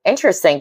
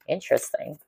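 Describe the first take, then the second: First: Said in the usual way. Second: Interesting said softly to herself, under the breath; quiet musing. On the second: Real, not acted. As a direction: murmur Interesting to yourself, much softer. Musing to herself over a song.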